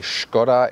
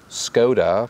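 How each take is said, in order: First: The name is said with Czech pronunciation. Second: The name is said with English pronunciation. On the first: It honors the car's origin. "closer to the original Czech pronunciation" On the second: It is how English speakers usually say it. "in English-speaking countries you always hear Skoda"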